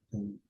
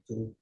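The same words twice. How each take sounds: The two takes are said the same way.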